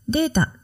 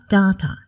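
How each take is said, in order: First: The first syllable sounds like 'day'. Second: The first syllable sounds like 'dah'. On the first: This is the usual pronunciation. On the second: This is how Australians say it.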